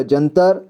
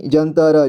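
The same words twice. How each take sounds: First: Said in the usual way. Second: जंतर split as "jan-ta-ra"; जंतर with final र voiced as "ra"; sounded out. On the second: Shown as a demonstration. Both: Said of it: "इसे [name] पढ़ेंगे".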